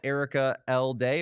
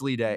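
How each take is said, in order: First: The middle part sounds like the letter L. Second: The middle part sounds like the name Lee. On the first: The speaker calls it wrong. "or is it Lee Day?" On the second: The speaker calls it right. "It's Lee Day"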